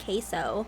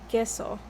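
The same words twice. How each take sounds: First: It is said with an anglicized American pronunciation. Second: It is said with a Spanish pronunciation.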